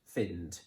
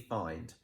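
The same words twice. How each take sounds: First: The vowel is short, as in 'sit'. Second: The vowel is long, as in 'eye'. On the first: The speaker calls it wrong. "I would not pronounce that I and find, because find isn't a real word" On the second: The speaker calls it right. "So that first one would be find"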